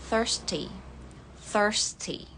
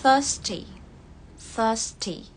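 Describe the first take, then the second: First: Thirsty as "thərsti", R sounded, American; American thirsty with the R rolled in; American accent. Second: Thirsty as "thəsti", no R, British; British thirsty, the R dropped; British accent. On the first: Teacher showing American thirsty with the R. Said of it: "Kalau American". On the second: Teacher showing British thirsty with silent R. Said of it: "Untuk British ya". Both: Shown as a demonstration.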